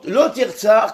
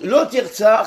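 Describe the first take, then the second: First: Lo and Tirtsar are read together. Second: Lo and Tirtsar are read together.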